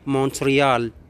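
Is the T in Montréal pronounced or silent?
pronounced. It is said the English way, T pronounced. "C'est en anglais, bien sûr, on le prononce Montréal"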